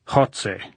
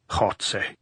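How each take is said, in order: First: Jotze with a hawking throat sound; guttural Jotze; throaty Jotze. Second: Throaty croak on Jotze. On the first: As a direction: say Jotze as if clearing a bad cold. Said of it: "making the sound deep in his throat". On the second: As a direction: hawk Jotze from the back of the throat. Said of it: "he croaked". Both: A narrator's reading.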